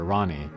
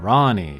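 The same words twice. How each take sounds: First: The vowels in the name are kept short. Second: A vowel in the name is drawn out. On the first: The speaker calls it right. "the shorter Rani" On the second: The speaker calls it wrong. "not Rani"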